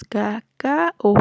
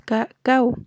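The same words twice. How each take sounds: First: "cacao" slowly in three syllables, ca-ca-o; "cacao" drawn out as ca, ca, o; split hiatus. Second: "cacao" in two syllables, ca-cau; "cacao" ending in one glided cau; diphthong at the end. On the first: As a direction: say "cacao" slowly, the final o on its own. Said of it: "decimos cacao". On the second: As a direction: say "cacao" with the ao run together as au. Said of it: "no decimos cacao". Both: Shown as a demonstration.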